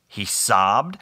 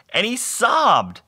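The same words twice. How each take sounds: First: Said in the usual way. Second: High, drawn-out wail on "sobbed"; hammed-up weepy storytelling; mock sobbing narration. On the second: A narrator's reading. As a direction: stretch "sobbed" into a slow, high mock cry. Narrator escalates a mock sob.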